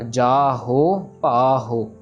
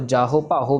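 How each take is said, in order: First: Both vowels in each word are held long. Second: The vowels are clipped and said short. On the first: The speaker calls it right. "दोनों के दोनों को proper time जाएगा" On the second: The speaker calls it wrong. "किसी को भी छोटा sound नहीं देनी"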